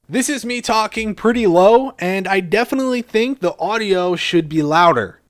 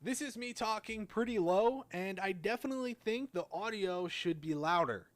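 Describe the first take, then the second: First: Amplified playback. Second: Barely audible, far too quiet recording; very low recording volume. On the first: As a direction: play it back amplified, clearly audible. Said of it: "amplifying it twenty point one decibels". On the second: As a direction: play it back before amplifying, extremely faint. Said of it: "here's how it sounded before". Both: Shown as a demonstration.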